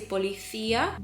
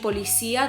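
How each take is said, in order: First: The c is said with a th sound. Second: The c is said with an s sound. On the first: "in majority of Spain, they speak with a lisp" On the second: "instead of saying policía"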